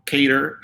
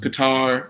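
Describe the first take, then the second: First: "Qatar" with a first syllable like "Kay"; alternate pronunciation. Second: "Qatar" with the weight on a long final "tar"; alternate pronunciation. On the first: Guest showing the host another pronunciation, "Qatar" as KAY-ter. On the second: Guest showing the host one pronunciation, "Qatar" as kuh-TAR. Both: Shown as a demonstration. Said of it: "it's also pronounced".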